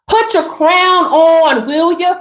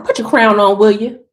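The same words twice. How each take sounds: First: Slow, stretched "crown on"; slow, emphatic repeat; drawn-out command. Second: Said in the usual way. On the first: Pretend.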